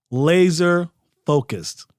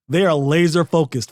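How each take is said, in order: First: Laser focused drawn out slowly, each word weighted; slow right down and lean on "Laser focused"; deliberate slow repeat of "Laser focused" for emphasis; slow, emphatic repeat. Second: Said in the usual way. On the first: Shown as a demonstration.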